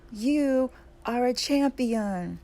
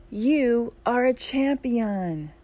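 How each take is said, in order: First: High, slow echo from the mountain; echoed shout. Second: High, loud call, very drawn out; scream. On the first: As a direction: call it back in long, ringing words. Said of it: "The voice answers". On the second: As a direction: proclaim it slowly to the mountain at a shout. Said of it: "The man screams". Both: A narrator's reading.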